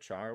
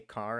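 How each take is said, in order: First: The word begins with a ch sound. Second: The word begins with a k sound. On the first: "instead of char" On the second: "people say car"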